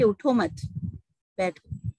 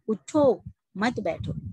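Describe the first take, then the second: First: There is a pause after मत. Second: There is a pause after उठो.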